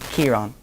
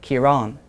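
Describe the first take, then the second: First: The stress is on the first syllable. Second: The stress is on the second syllable. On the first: This is how northern and western speakers say it. "In the north and in the west of Ireland, people would call him" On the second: This is how southern speakers say it. "In the south, people call him Kieran, and they emphasize the second syllable"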